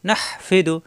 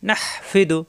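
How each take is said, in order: Both takes have the same delivery.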